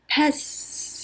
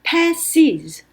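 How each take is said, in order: First: The s is added with no extra vowel. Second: An extra vowel comes before the final s. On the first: The speaker calls it wrong. "이렇게 할 수 없고" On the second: The speaker calls it right. "이 발음이 삽입이 되어야 발음할 수 있기 때문에"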